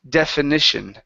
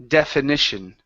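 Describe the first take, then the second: No difference in how they are said.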